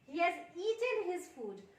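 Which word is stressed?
has. The stress falls on the word has. He has indeed finished eating it. "उसने अपना खाना खा लिया है"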